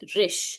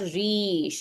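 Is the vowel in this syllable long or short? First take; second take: short; long. First: The vowel is kept short. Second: The vowel is held long. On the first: The speaker calls it right. "It's रिश। ... Short sound." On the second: The speaker calls it wrong. "It's not रीश"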